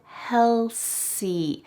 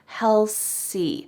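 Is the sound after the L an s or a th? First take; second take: s; s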